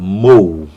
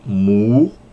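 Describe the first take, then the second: First: The vowel glides from o to u. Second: The vowel is a single plain oo sound. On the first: "Usa ali uh, o ômicron junto a Y" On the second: "A quem pronuncie mu, por causa uh, do, ali do Y"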